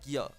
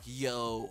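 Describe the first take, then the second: First: It sounds like the Spanish word yo. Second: It sounds like the English slang greeting. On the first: The speaker calls it right. "it's more like yo. If you know Spanish, it's kind of like the same pronunciation" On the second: The speaker calls it wrong. "like the slang like yo, what's up?"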